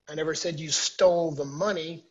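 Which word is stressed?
money. The stress is on the word money.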